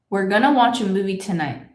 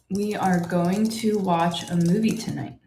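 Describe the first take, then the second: First: It is contracted to we're gonna. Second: Each word is said fully, without contraction. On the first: "I turned going to into gonna" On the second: "It is better if you say going to"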